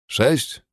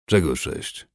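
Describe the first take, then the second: First: High incredulous echo of sześć; sześć rising sharply in disbelief; surprised question. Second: Said in the usual way. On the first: A narrator's reading. Warrior surprised by demand.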